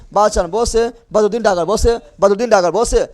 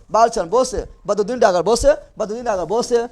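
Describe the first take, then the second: No difference in how they are said.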